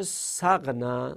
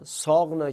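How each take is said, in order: First: سقنه said sægnæ, short a; سقنه with clipped short first vowel; short form. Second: ساقنه said sɔgnæ, long first vowel; ساقنه with a long open first vowel; long form. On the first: Teacher showing the shortened form, سقنه said sægnæ. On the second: Teacher showing the base form before shortening, ساقنه said sɔgnæ. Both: Shown as a demonstration.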